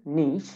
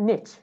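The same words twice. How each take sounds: First: British "niche" as "neesh"; British accent. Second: American "niche" as "nitch"; American accent. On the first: Teacher models British "niche" for students, rhyming with "leash". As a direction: say "niche" with long EE and SH. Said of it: "In British accent". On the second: Teacher models American "niche" for students, rhyming with "pitch". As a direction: say "niche" with short I and CH. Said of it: "American accent". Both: Shown as a demonstration.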